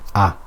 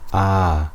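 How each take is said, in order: First: The vowel is short, one beat long. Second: The vowel is long, two beats long. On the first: "one haraka is the amount of time it takes me to pronounce a fatha" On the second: "Two harakas is the time it takes me to put my finger up and down"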